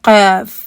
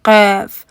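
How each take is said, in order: The two takes are said the same way.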